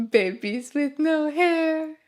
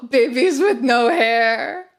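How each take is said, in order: First: Said in the usual way. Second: Gasping laughing disbelief. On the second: Real, not acted. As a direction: laugh it out, amazed.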